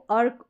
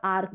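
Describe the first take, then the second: First: अर्क with a short "uh" before the r; short vowel. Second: आर्क with a long "aa" before the r; long vowel. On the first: Teacher showing one of two readings of ARK, short vowel. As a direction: say अर्क with a brief first vowel. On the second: Teacher showing the other reading of ARK, long vowel. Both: Shown as a demonstration. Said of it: "दोनों तरीके से पढ़ते".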